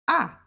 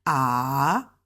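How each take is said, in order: First: Short AH falling sharply from high; fourth tone. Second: Long AH dipping low, then sweeping up; third tone. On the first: Teacher contrasts the stopped tone, high falling AH. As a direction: drop AH abruptly, like a stop. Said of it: "Just like a stop". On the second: Teacher shows the dipping tone to learners, low swooping AH. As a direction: scoop AH down and back up. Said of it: "It dips, starts high, go low". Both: Shown as a demonstration.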